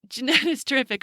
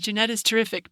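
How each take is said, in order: First: It is said with excited, exclamatory energy. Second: It is said flatly, like a plain statement.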